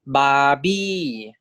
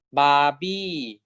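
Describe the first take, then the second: First: Teacher modelling "Barbie"; modelled word. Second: Said in the usual way. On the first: Shown as a demonstration. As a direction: sing "Barbie" up then down. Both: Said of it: "So this is".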